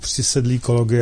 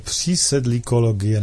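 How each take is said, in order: First: The first i vowel is said short. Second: The first i vowel is said long. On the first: "nebo s krátkým" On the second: "jestli s dlouhým"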